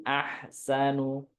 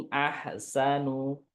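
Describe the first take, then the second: The two takes are said the same way.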